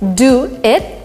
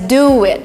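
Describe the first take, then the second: First: The words are said without a linking sound. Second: A w sound links the two words.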